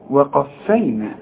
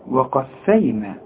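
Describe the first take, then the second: Both takes have the same delivery.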